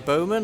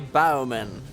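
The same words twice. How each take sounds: First: The first part rhymes with go. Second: The first part rhymes with cow. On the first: They are archers. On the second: They will bend down in submission.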